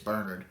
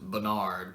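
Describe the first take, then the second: First: The name is said the British way. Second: The name is said the American way. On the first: "I believe in the U K it's Bernard" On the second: "I live in the States and we pronounce it Bernard"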